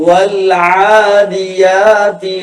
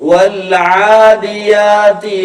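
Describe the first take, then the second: The two takes are said the same way.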